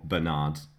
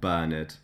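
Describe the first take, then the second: First: The name is said in an American way. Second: The name is said in a European way. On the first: This is probably closer to what he was called. "it makes me feel like I'm saying it in an American way" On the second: This is probably not what he was called. "probably not called Bernard"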